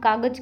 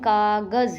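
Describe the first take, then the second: First: The last consonant is a plain j sound. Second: The last consonant is a z sound. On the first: This is how people commonly say it. The speaker calls it wrong. "हम कागज कह देते हैं" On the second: This is the original Persian-Arabic sound. The speaker calls it right. "लेकिन कागज़ ही होता है वो"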